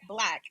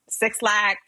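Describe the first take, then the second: First: The name begins with a 'b' sound. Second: The name begins with the number six. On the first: The speaker calls it right. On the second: The speaker calls it wrong. "I've been saying it for so long"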